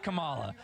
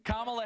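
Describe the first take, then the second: First: Kamala with MAH stressed; the rejected kuh-MAH-la for Kamala; wrong-syllable stress. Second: Kamala with KA stressed, pitched up; mock correction, KA-ma-la for Kamala; first-syllable stress. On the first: Retold or imitated. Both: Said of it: "You put the emphasis on the wrong syllables".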